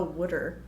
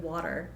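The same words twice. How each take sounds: First: Jersey mom's "wooder" for water. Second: Said in the usual way. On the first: Retold or imitated. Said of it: "Wooder instead of". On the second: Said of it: "instead of".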